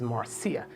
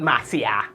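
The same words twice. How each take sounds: First: Marcia low, soft and smooth, MAR-see-a; sexy name. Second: Marcia hard and chopped, MAH-syah, no R; chopped-up name. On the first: Shown as a demonstration. Host models Marcia as a sexy name, softly. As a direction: let Marcia glide out softly with its R. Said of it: "It's a sexy name". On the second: Retold or imitated. Host shows the wrong Marcia, chopping it up. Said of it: "People are very chop up your name".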